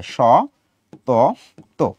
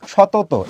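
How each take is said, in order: First: "স", "ত", "ত" as separate beats with pauses; syllable by syllable. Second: Said in the usual way. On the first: Shown as a demonstration. Teacher demonstrating syllables, "স", "ত", "ত" each said separately. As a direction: break "সতত" into three detached syllables. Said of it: "আমি উচ্চারণ করছি এইভাবে".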